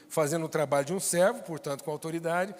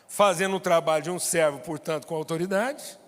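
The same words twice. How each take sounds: First: The phrase is spoken at a normal pace. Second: The phrase is spoken slowly and deliberately.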